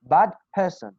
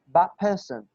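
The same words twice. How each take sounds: First: There is a small stop between the words. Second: The words run together quickly without a stop. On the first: "you have to stop" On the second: "you're just gonna move it fast"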